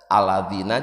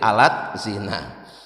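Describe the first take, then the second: First: The middle consonant is a soft 'dh' sound. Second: The middle is a 't' followed by 'z'. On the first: "tulisan Arabnya aladzina" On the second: "ditulis Latin jadi alat zina"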